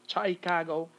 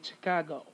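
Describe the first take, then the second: First: The first syllable has a full, clear vowel. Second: The first syllable has a weak schwa vowel. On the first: The speaker calls it wrong. "instead of having an I, you're not going to say Chicago" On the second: The speaker calls it right. "you're going to have a schwa here"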